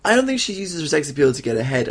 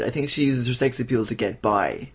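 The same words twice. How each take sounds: First: "don't" raised in pitch, said briskly; quick rebuttal leaning on "don't"; corrective stress. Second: Settled restatement landing on "by" with a fall; contrastive correction. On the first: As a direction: hit "don't" high while disputing the point. Correcting co-host, contrasting ahead with by. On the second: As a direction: contrast "get by" at a calmer pace. Offering the corrected version after rebuttal. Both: Real, not acted.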